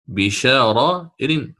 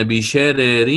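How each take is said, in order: First: بشارائر with the first ra heavy and full, pronounced tafkhim, slowly. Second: بشرر with the first ra thin and light, pronounced tarqiq. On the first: Teacher shows students the Qalun reading with a heavy first ra. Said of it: "فخمت الراء الأولى". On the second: Teacher shows students بشرر with the first ra thinned. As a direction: say بشرر with both ra sounds thin, light and forward. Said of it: "مثل ما فعلنا في بشرر". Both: Shown as a demonstration.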